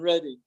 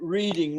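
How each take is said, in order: First: The first vowel sounds like 'red'. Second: The first vowel sounds like 'reed'. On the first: It names the town. The speaker calls it right. "rather than Reading" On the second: It is read as the ordinary verb. The speaker calls it wrong. "he pronounces it reading"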